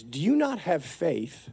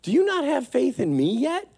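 First: "Do you not have faith" slow and softer, at usual pitch; intended earnest reading. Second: "Do you not have faith in me yet?" pitched high, rising at the end; mistaken reproachful reading. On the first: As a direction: ask "Do you not have faith" slowly, gently, falling. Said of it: "what Jesus was saying is". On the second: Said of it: "So Jesus wasn't saying". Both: Acted.

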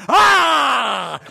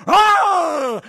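First: Loud, long imitated mother bear roar; mama bear's roar. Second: Very high, loud imitated cub cry; little bear's holler. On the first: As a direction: roar loudly behind the cub to scare off the lion. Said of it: "the Mama bear was behind him going". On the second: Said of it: "while the little bear was going".

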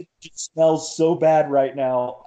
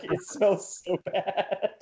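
First: High, a little louder, half-whined complaint; mock teary complaint. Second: High, soft and slow whimpered "It smells so bad"; mock whimper. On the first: Runner retelling his teary whine to his buddy's wife, high and a bit loud. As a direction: play it as a teary runner griping about the trash. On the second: Runner repeating the trash complaint to the pregnant wife, soft slow whimper. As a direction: let it sag into a pitiful drawn-out whine. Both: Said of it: "And I was like".

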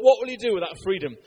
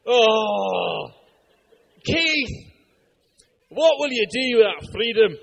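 First: Said in the usual way. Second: Hammed-up, loud Scottish battle speech; thick Scottish accent. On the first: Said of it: "And he's like". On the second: Preacher acting out a movie battle line, thick Scottish accent. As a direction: put on a mock Scottish roar. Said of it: "in a thick Scottish accent".

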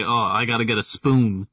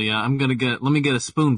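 First: "spoon" stretched out longer than needed; overpronounced accent. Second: Said in the usual way. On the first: Shown as a demonstration. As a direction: draw out the vowel in "spoon". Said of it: "I just overpronunciate words longer". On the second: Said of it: "I'll be normal".

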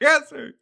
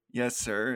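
First: High, loud mock recruit scream; hammed-up military yell; screamed reply. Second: Said in the usual way. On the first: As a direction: scream it back like a drilled recruit. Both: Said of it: "he keeps screaming".

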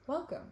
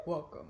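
First: Bright TV weather presenter welcome; weather reporter voice. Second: Said in the usual way. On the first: Shown as a demonstration. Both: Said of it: "that's like a weather reporter voice".

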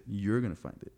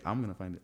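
First: YOU'RE leaned on, rest falls away; stress on YOU'RE. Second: I'M leaned on, rest falls away; stress on I'M. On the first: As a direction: put the weight on "You're". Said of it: "I said". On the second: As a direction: put the weight on "I'm". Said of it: "I, I didn't say". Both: Real, not acted.

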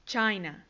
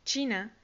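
First: "China" said CHAI-na, the English way; English pronunciation. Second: Said in the usual way. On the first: Shown as a demonstration. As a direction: model "China" with an "ai" in the first syllable. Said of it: "China se dice". ("China" en inglés, suena "cháina") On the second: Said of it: "se dice".

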